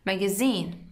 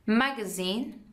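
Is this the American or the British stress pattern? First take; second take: British; American. First: The stress falls as in British English. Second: The stress falls as in American English. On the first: "British magazine" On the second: "American magazine"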